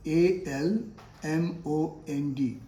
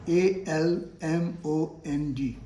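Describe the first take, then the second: No difference in how they are said.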